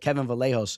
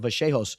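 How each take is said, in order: First: The double l is said as an English l. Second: The double l is said the Spanish way. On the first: This is the Americanized way. "the American way would be like Kevin Vallejos" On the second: This is the authentic way. "they pronounce it Vachejos. I think that's, like, the actual way"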